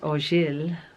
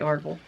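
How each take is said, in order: First: The name is said the French way. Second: The name is said the American way. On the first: "if we say it the French way" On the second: "we're here in America, so we say Orgel"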